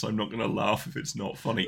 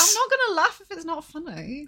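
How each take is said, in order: First: Flat mocking quote, pitched low; mocking repeat in low voice. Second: Indignant. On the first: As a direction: throw her words back, deadpan. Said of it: "quoting her back". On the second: Real, not acted. Indignant reply.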